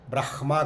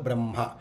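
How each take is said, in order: First: The h sound comes before the m sound. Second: The m sound comes before the h sound. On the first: The speaker calls it wrong. "కాదు" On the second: The speaker calls it right. "ఒత్తు ముందు పలికి తర్వాత అక్షరాన్ని పలకాలి"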